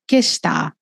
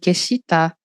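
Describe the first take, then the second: First: The shi syllable is faded, nearly silent. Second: The shi syllable is clearly sounded. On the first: The speaker calls it right. "o "shi" ele vai sumindo" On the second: The speaker calls it wrong.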